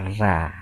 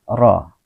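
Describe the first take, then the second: First: The ra is said light and thin. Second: The ra is said heavy and full. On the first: The speaker calls it wrong. "tidak boleh dibaca ra, ra. Itu bacaan salah" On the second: The speaker calls it right. "dibaca tebal atau tafkhim"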